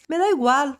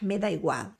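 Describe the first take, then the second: First: It is said in a polite, courteous tone. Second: It is said in a rude, dismissive tone. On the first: Any option is fine with the speaker. "de forma cortês" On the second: The speaker does not care at all. "meio rude, meio grossa"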